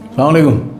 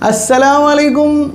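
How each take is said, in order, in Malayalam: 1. ഇത് ചുരുക്കമായി, ചിരിയില്ലാതെയാണ് പറയുന്നത്. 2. ഇത് ചിരിച്ചുകൊണ്ട്, സ്നേഹത്തോടെയാണ് പറയുന്നത്. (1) "അങ്ങനെയല്ലടോ" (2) "ഒന്ന് ചിരിച്ചുകൊണ്ട് പറയും"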